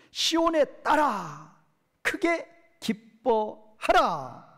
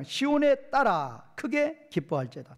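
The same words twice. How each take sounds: First: Very slow, high proclamation of 크게 기뻐하라; emphatic command. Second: Said in the usual way. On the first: Shown as a demonstration. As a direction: draw out 크게 기뻐하라 like a solemn command. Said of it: "명령형이에요". (크게 기뻐하라를 아주 느리고 높게 선포하듯) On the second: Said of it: "첫 번째 문장".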